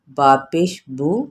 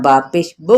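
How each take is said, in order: First: The final vowel ends smoothly without a jerk. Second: The final vowel is cut off with a jerk. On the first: The speaker calls it right. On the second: The speaker calls it wrong.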